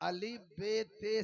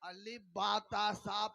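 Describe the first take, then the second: First: The letter names end in a fronted e vowel. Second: The letter names end in an open a vowel. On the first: "अली बेते से पढ़ने को इमाला कहते हैं" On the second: "अली बातासा पढ़ने को तफहीम कहते हैं"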